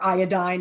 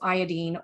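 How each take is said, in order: First: It uses the American pronunciation of the word. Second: It uses a non-American pronunciation of the word.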